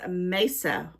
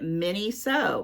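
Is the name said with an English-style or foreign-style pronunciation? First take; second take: foreign-style; English-style. First: It is said in a shorter, non-English way, 'meso'. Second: It is read as two English-style parts, 'mini so'. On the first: The speaker calls it right. "it sounds nothing like my English ter- interpretation. It's meso" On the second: The speaker calls it wrong. "with my southern twang, I just want to call it mini so"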